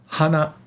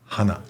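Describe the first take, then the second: First: The pitch starts high and falls. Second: The pitch starts low and rises. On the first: "goes up to down" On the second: "down to up"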